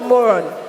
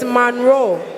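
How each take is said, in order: First: It is said without an n after the first vowel. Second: It is said with an n after the first vowel. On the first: The speaker calls it wrong. "It's not Moron" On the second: The speaker calls it right. "It's Monroe"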